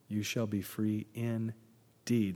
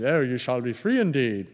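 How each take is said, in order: First: Solemn reading. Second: A hint of a plummy English accent on the verse; lightly lampoon a pompous English reader; mock English accent. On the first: Shown as a demonstration. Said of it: "That's not just somebody with an English accent". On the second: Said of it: "somebody with an English accent".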